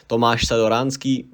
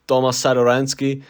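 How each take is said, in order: First: Tomáš said the Czech way, TOH-mahsh; Tomáš Sadoransky said natively in Czech; Czech pronunciation. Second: Tomas Sadoransky said the English way, TOM-us; English name reading. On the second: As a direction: Tomas Sadoransky read plainly with English vowels. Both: Shown as a demonstration. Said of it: "hear it with my Czech accent".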